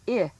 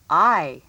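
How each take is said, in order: First: I said as "ih"; short I sound. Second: I said as "eye"; long I sound. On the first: Teacher has pupils listen for milk's vowel, I as "ih". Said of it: "I'll say a vowel sound". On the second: Teacher names the next sound for pupils, I as "eye". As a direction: punch I out as the vowel in five. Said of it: "the I sound in five". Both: Shown as a demonstration.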